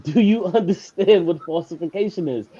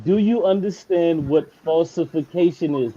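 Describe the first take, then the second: First: Laughing mid-question. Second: Slowed, every word spelled out; slow and deliberate. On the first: Real, not acted. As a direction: break into a laugh on "understand". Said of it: "I'm sounding like a robot at this point". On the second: Shown as a demonstration. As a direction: repeat it slowly and pointedly. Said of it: "This is the third time".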